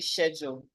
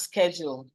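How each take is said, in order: First: It is said with a British accent. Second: It is said with an American accent. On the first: "a British person will say schedule" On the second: "as an American, the word schedule is pronounced as schedule"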